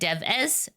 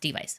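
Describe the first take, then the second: First: The word ends with a short 'es' sound. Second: The word ends with a long 'ice' sound. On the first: The speaker calls it wrong. "it looks like Dev-es" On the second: The speaker calls it right. "it's pronounced Device"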